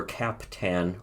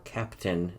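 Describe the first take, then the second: First: "Captan" with a full "tan" ending; second syllable TAN. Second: "Captain" with a weak, reduced second syllable; usual English Captain. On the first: Fan naming the edit artist, "Captan" said CAP-TAN. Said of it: "or Captain, as he was way back then". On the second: Fan offering the artist's other name, "Captain" said CAP-tun. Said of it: "Captan, or Captain". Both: Shown as a demonstration.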